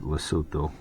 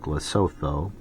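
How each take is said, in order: First: The word is said in its native pronunciation. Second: The word is read out as it is spelled. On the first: "that's how you pronounce it" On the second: "it's written out like Lesotho"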